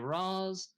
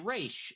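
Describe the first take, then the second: First: The name ends with a 'z' sound. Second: The name ends with a 'sh' sound. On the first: "some people say Raz" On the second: "Some people say Raish"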